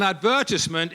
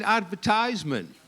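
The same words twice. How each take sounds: First: "advertisement" as ad-VER-tis-ment; British pronunciation of advertisement. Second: "advertisement" as ad-ver-TIZE-ment; other pronunciation of advertisement. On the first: Shown as a demonstration. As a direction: stress the VER in "advertisement", short i after it. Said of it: "so I had to say advertisement". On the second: Retold or imitated. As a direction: stress the TIZE in "advertisement", long i. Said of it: "so I had to say advertisement on the video".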